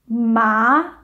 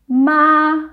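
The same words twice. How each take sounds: First: The pitch rises from middle to high. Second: The pitch stays high and level. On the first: "Le deuxième monte" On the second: "Le premier est o"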